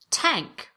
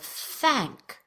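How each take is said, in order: First: The word begins with a plain T sound. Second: The word begins with a voiceless TH sound. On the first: The speaker calls it wrong. "substitute a t or a s, that's a T or an S, for a voiceless T H" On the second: The speaker calls it right. "voiceless T H"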